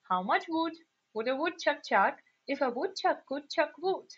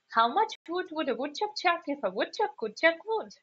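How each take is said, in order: First: The sentence is said slowly and carefully. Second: The sentence is said quickly and hurriedly. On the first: "let's say it one more time"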